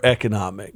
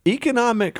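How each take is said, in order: First: "economic" opening with a short "eh"; other vowel variant. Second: "economic" opening with a long "ee"; first vowel variant. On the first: Co-host asking guest which is right, "economic" with short eh. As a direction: say "economic" as eh-kuh-NOM-ik. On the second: Co-host asking guest which is right, "economic" with long ee. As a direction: say "economic" as ee-kuh-NOM-ik. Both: Shown as a demonstration. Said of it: "so I'm equally wrong".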